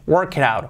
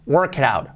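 Both takes have the same delivery.

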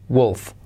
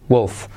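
No difference in how they are said.

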